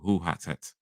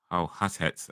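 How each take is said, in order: First: The first word rhymes with English 'too'. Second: The first word rhymes with English 'now'. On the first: The speaker calls it right. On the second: The speaker calls it wrong.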